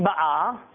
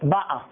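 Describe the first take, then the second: First: The stress is on the last syllable. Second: The stress is on the first syllable. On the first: She is coming now. "זה בהווה היא באה, אז זה מלרע" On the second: She came in the past. "מלעל באה"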